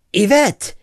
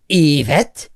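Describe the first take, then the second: First: Said in the usual way. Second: Yvette with the first syllable punched, EE-vet; stress on first syllable. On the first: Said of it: "instead of the second". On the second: Shown as a demonstration. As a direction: hit the opening EE of Yvette. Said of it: "emphasize the first syllable".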